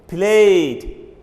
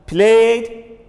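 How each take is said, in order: The two takes are said the same way.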